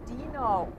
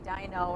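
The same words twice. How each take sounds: First: The name is said like the cartoon dinosaur. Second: The name is not said like the cartoon dinosaur. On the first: The speaker calls it right. "it's Dino ... like from the Flintstones" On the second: The speaker calls it wrong. "I always say Dino"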